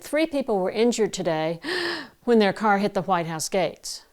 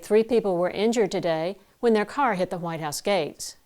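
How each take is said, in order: First: A noisy sucking breath intake is audible. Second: No breath intake noise is audible. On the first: The speaker calls it wrong. "you certainly heard that intake of air" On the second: The speaker calls it right. "And you don't hear that at all"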